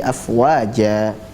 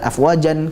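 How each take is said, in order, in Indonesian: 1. Kata itu berakhir dengan vokal a panjang. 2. Kata itu berakhir dengan bunyi n. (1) "dibaca dua harakat" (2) "bukan afwajan kita baca"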